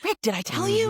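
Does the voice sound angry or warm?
warm. The voice sounds soft and warm. "my voice would change"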